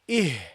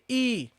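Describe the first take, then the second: First: The syllable ends with an audible h sound. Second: The syllable is said without an h sound. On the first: The speaker calls it right. "You should pronounce the ha, the hamza and the ha" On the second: The speaker calls it wrong. "Don't say e"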